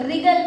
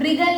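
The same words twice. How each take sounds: First: "रिगल" starting straight on the R, no W sound; silent W. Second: "रिगल" with the normally silent W pronounced at the start; sounded W. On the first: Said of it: "तो W यहाँ पे silent है". ("रिगल" सीधे र से शुरू, W silent) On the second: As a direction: say "रिगल" wrongly as v-rigal, W audible. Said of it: "हम लोग रिगल नहीं बोलते". ("रिगल" के शुरू में W की आवाज़ जोड़कर, व्रिगल) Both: Shown as a demonstration.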